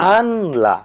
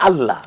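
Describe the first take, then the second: First: The n is pronounced separately before the l. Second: The n merges into a doubled l sound. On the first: "আলাদা করলে" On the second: "একসাথে উচ্চারণ করে"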